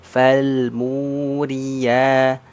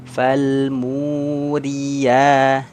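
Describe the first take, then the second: No difference in how they are said.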